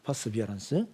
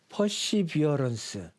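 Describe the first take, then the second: First: It is said with English pronunciation. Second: It is said with Korean-style syllables. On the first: The speaker calls it right. "정확한 발음은 perseverance입니다" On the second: The speaker calls it wrong. "뉴스를 보시면요. 퍼시비어런스라고 나옵니다"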